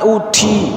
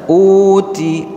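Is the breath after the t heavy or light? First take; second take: heavy; light. First: The t carries a strong burst of breath. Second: The t carries only a slight breath. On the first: The speaker calls it wrong. "Jangan dibaca" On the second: The speaker calls it right. "sekedar terdengar uti, uti, uti, sedikit"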